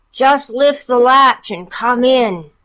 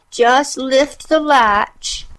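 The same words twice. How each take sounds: First: High, slow fake granny; wolf putting on granny voice. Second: Put-on high, slow old granny voice; slow frail granny; old grandmother voice. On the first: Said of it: "hoarseness of Grandmother's voice". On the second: Grandmother invites. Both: A narrator's reading.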